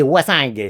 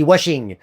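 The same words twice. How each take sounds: First: "washing" as northern French "wassingue", hard g ending; ch'ti accent. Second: "washing" said the English way, ending in -ing; American pronunciation. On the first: Comic names the northern floorcloth, "washing" in ch'ti accent. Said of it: "Dans le Nord, une serpillière". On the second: Comic compares words for cleaning, "washing" pronounced as in American English. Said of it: "pour laver en américain, on dit". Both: Shown as a demonstration.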